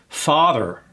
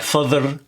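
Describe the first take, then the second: First: The first vowel is an open ah. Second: The first vowel is not an open ah. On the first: The speaker calls it right. "So here we have an open vowel" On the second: The speaker calls it wrong. "It's not father"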